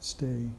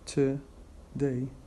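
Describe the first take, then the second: First: The weak first vowel is dropped. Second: The weak first vowel is pronounced. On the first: "we delete uh, the schwa, and it becomes" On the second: "instead of saying today"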